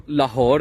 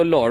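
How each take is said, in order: First: لاہور said fully as "la-hor" with the h; لاہور in two syllables, la-hor; standard Lahore. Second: لاہور clipped to one syllable, "lor"; لاہور squeezed into "lor", h dropped; Punjabi Lahore. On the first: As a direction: standard Urdu لاہور, h kept. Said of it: "ہم اس کو لاہور نہیں بولتے". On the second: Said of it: "Punjabi میں اس کو بولتے ہیں". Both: Shown as a demonstration.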